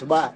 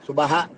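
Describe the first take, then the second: First: The word ends plainly on a long vowel. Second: The word ends with an added breathy 'ha' syllable.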